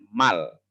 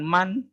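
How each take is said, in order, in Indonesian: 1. Suku kata itu berakhir dengan bunyi l. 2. Suku kata itu berakhir dengan bunyi n. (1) "cara membacanya mal" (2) "bukan man"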